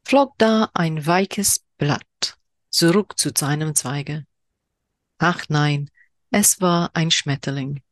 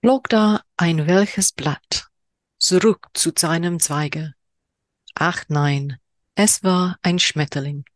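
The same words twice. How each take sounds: First: Slower repeat of the German haiku, lingering; second German reading. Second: Slow, deliberate haiku recital in German; haiku reading in German. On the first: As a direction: read it again, letting each line hang. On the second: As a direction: savor each German word, unhurried. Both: Shown as a demonstration. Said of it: "apologies for my horrendous German accent".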